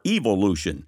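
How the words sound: The word has a British pronunciation.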